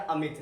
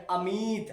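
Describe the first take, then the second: First: अमित said briefly, short i. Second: अमित with the i stretched long and higher. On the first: Teacher models the short matra reading, short i. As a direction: say अमित with no stretch on the i. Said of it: "आराम से मेरे दोस्त". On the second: Teacher shows the big matra, long stretched i. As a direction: lengthen and lift the i in अमित. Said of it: "अगर बड़ी की मात्रा लाएंगे". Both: Shown as a demonstration.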